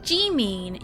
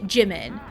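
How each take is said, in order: First: The first vowel is a long ee sound. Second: The first vowel is a short i sound. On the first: The speaker calls it right. "instead of Jimin" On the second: The speaker calls it wrong. "American English defaults to the short I sound"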